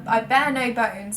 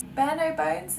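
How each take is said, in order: First: Said in the usual way. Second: Questioning echo, higher with a rising end; doubting herself. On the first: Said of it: "Is that even the right". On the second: Real, not acted. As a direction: query your own wording, puzzled. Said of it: "Is that even the right phrase?".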